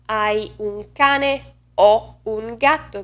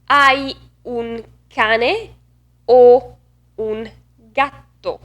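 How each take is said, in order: First: Italian, "o" opened to "aw", falling at the end; wrong open O. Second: Slow Italian question, loud closed "o" set apart by pauses. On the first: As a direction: run it as a statement with open "o". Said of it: "It's not". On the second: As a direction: punch a rounded "o" between the two animals. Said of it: "You can hear the difference". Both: Shown as a demonstration.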